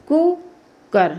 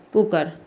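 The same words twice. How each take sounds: First: Slow sounded-out word. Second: Said in the usual way. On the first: Shown as a demonstration. Teacher demonstrating cooker to students, slow and drawn out. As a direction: stretch cooker so each sound is heard. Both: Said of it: "छोटा ऊ में क्या हो जाता है".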